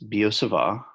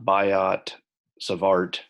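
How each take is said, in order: First: The final T sounds are left silent. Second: The final T sounds are clearly pronounced. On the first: The speaker calls it right. "The T's are both silent" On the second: The speaker calls it wrong. "so it's not Biot, Savart"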